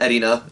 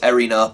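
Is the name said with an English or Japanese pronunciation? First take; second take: Japanese; English. First: The name is said with a Japanese pronunciation. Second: The name is said with an English pronunciation. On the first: "I watched it in Japanese. It's burned into my head that way" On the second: "I know it's Erina"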